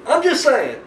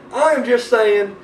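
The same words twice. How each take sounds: First: High-pitched "I'm just saying"; mock-defensive disclaimer. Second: Slow, spelled-out "I am just saying"; emphatic disclaimer. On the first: Backing off after his rant. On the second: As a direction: stretch out "I am", every word deliberate and pitched up. Repeats disclaimer drawn out for emphasis. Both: Real, not acted.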